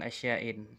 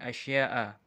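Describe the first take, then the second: First: The word ends with an 'in' sound. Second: The word ends with a plain 'a' sound. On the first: The speaker calls it wrong. "mendhabit dengan asya'in, tapi sepertinya kurang tepat" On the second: The speaker calls it right. "maka dibaca dengan asya'a"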